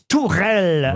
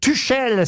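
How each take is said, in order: First: The name is pronounced the German way. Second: The name is read as spelled, French style. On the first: The speaker calls it right. "mais en fait, ça se prononce Tourelle en Allemagne" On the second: The speaker calls it wrong. "quand on lit, on pourrait avoir envie de dire Tuchel"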